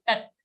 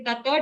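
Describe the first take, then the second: First: Tat ending on a bare t; halant ta. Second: Tata with a full last ta; wrong tata. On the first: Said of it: "only a halant ta". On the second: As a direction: sound tata with a vowel. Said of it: "Don't say tata". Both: Shown as a demonstration.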